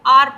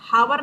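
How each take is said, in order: First: The word starts with a vowel sound. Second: The word starts with an h sound. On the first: The speaker calls it right. "इसे आप आर पढ़ते हैं" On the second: The speaker calls it wrong. "इसे आप हावर नहीं पढ़ते"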